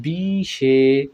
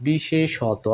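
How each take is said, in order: First: বিশেষত drawn out slowly, final ত as "to"; teacher stretches বিশেষত syllable by syllable; বিশেষত: slow model pronunciation; slow syllable demo. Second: বিশেষত said at normal speed, ending bisheshoto; বিশেষত said fluently after the slow take; বিশেষত at natural pace; normal-speed demo. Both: Shown as a demonstration. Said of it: "উচ্চারণটা হবে এরকম".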